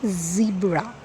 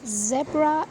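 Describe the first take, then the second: First: The word is said the American way. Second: The word is said the British way. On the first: "Americans and we Indians we pronounce it as" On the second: "in British English"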